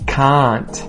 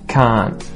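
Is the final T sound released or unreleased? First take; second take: released; unreleased. First: The final T is clearly released. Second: The final T is held and not released. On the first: "we'll say the T released" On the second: "then we'll say it unreleased"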